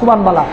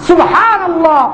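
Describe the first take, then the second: First: The phrase is slurred into subhan bala. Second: The phrase is said fully as subhanallah. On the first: The speaker calls it wrong. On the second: The speaker calls it right.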